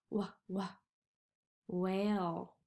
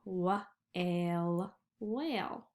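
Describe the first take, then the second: First: Wh-, wh-, whale, the wh stretched; sounding out whale. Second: Wh-ale split, then whale whole; sounding out whale. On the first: Teacher sounding out whale for the kids. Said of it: "I see a whale". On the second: Teacher blending whale for the children. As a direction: blend the word back together. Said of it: "this could be the word whale". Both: Shown as a demonstration.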